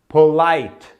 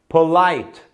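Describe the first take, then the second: The two takes are said the same way.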